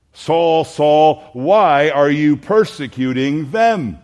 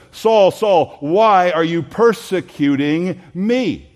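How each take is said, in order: First: "them" as a loud falling end, each Saul called out; preacher voices the line we expect, ending on "them"; expected version. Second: Loud, slow, "me" landing heavy on a falling end; emphatic me. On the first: Preacher contrasts what the church expects, loud and slow. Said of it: "We are expecting". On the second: Preacher shows Jesus naming himself the victim, emphatic on "me". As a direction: lean on "me" as the true target. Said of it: "me" there is an emphatic, independent pronoun". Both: Shown as a demonstration.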